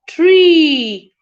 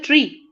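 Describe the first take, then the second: First: The vowel is long. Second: The vowel is short. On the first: The speaker calls it right. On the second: The speaker calls it wrong.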